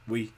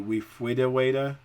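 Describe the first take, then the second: First: Only one short syllable is produced. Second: A few sounds are replaced, mainly r with w. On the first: "the severe is just" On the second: "a mild disorder would be"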